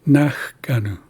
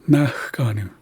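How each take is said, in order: The two takes are said the same way.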